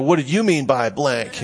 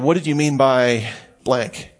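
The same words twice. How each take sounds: First: It is asked in a sharp, hostile tone. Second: It is asked in a calm, neutral tone. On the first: The asker is challenging the other person. The speaker calls it wrong. "You don't say" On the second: The asker sincerely wants to understand. The speaker calls it right. "you don't put any stank on this"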